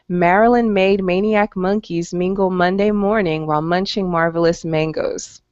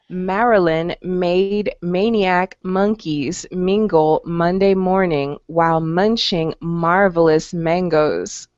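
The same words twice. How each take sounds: First: It is said at a fast pace. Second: It is said at a slow pace.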